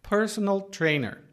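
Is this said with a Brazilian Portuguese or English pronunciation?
English. It is said with an English pronunciation. "na pronúncia inglesa"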